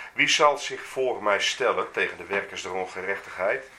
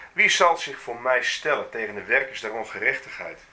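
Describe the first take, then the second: Both takes have the same delivery.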